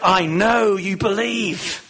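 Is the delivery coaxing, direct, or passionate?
passionate. It is said with strong, fervent passion. An emotional appeal to the listener. "Did he say it with real passion?"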